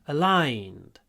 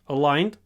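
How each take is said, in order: First: The vowel is long with a y-glide. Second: The vowel is short and plain. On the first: The speaker calls it right. "try to get a lot of y" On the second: The speaker calls it wrong. "Not just aligned"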